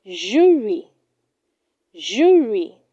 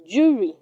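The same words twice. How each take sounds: First: Jury said as "JOO-ree"; correct pronunciation. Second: Jury said short, "juri"; wrong pronunciation. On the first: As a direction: draw out the oo in jury. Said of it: "It is pronounced". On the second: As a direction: keep the vowel of jury brief. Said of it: "Do not say". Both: Shown as a demonstration.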